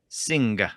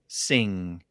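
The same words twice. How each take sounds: First: It ends with a distinct hard G sound. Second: It ends in ng with no G sound. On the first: This is how it was said in older English. "It was a very distinct g" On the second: This is how it is said today. "we don't really pronounce it with a very distinct G sound"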